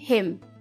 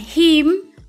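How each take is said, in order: First: The vowel is a short, lax sound near 'e'. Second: The vowel is a long, tense 'ee' sound. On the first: The speaker calls it right. "tapi him; simbol i pendek yang dibaca mendekati huruf e" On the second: The speaker calls it wrong. "Bukan him"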